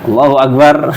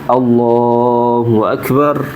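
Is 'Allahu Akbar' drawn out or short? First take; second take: short; drawn out. First: The phrase is said short and quickly. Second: The phrase is stretched out long. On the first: The takbir is not lengthened over the movement. "Kalau menurut saya enggak" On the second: The takbir lasts the whole way down into bowing. "dipanjangkan mulai dari turun sampai tek ruku"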